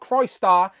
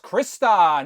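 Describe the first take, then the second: First: The name does not begin like crystal. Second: The name begins like the word crystal. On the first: The speaker calls it wrong. "not Crystar, despite the comments telling me I'm saying it wrong" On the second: The speaker calls it right. "it is of course Krista"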